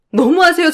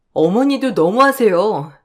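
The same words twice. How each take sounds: First: 너무하세요 cried out much higher and louder; indignant outburst. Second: Said in the usual way. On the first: Acted. Repeats protest to mother-in-law. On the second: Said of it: "너무하세요 repeated".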